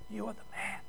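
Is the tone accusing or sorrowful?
sorrowful. It is said in a broken, tearful tone.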